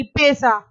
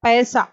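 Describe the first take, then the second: First: पैसा with a plain e sound, pesa; wrong vowel in पैसा. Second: पैसा with an open ai sound, pɛsa; correct vowel in पैसा. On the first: Teacher demonstrates the wrong पैसा, pesa. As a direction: say पैसा with a closed e. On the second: Teacher demonstrates the correct पैसा, pɛsa. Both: Shown as a demonstration. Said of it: "ए, ऐ का देखिए".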